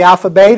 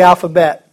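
First: First alphabet as "alpha-BAIT"; long-A ending. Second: Said in the usual way. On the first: Shown as a demonstration. Teacher offers the absurd option to the class, long-A ending. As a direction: end alphabet with an "ay" sound, like bait. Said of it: "what do we call it". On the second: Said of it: "the alphabet or the alphabet".

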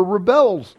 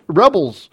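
First: "rebels" stressed on the last syllable, re-BELS; "rebels" mispronounced with Hebrew-like final stress; Hebrew-style stress. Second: Said in the usual way. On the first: Real, not acted. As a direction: say "rebels" as ri-BELZ, second syllable punched. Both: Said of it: "pronounce it like Hebrew".

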